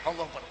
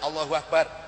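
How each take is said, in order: First: It is said in a strained, choked voice. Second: It is said in a relaxed voice.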